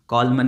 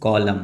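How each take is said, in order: First: The word ends with an N sound. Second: The word ends with no N sound. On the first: The speaker calls it wrong. "कॉलमन नहीं" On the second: The speaker calls it right. "ये लिखा हुआ है कॉलम"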